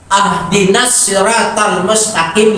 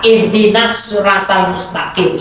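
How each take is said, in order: First: The first word begins with an 'a' vowel. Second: The first word begins with an 'i' vowel. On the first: It asks for a gift. The speaker calls it wrong. "ya Allah berikan hadiah kepada saya" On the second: It asks for guidance. The speaker calls it right. "itu maknanya, ya Allah berikanlah petunjuk kepada saya"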